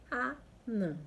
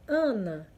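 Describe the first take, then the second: First: Anã slowly, landing on a nasal last vowel; nasal stressed final Ã. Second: Ana said loudly on the first A; stress on first syllable. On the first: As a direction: separate A and NÃ in Anã. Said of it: "um tio aí no último A". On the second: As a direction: punch the start of Ana. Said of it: "Se eu colocar um tio". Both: Shown as a demonstration.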